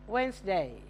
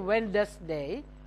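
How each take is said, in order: First: The D in the middle is silent. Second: The D in the middle is pronounced. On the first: The speaker calls it right. "When you say it, don't pronounce the D" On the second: The speaker calls it wrong. "don't say Wednesday"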